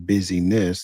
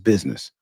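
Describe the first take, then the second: First: The word is said slowly, syllable by syllable. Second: The word is said quickly, syllables run together. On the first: Being busy. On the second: A company or trade.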